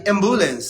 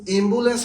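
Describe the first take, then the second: First: অ্যাম্বুলেন্স with a wide "ae" at the start; open initial vowel. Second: অ্যাম্বুলেন্স said as "embulens", almost "imbulens"; closed initial vowel. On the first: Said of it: "আমরা কোনটা ব্যবহার করি". (অ্যাম্বুলেন্স-এর শুরুতে স্পষ্ট খোলা "অ্যা") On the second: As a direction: start অ্যাম্বুলেন্স on a tight "e" sound. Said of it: "হবে নাকি অ্যাম্বুলেন্স". (অ্যাম্বুলেন্স-কে "এম্বুলেন্স" উচ্চারণ) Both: Shown as a demonstration.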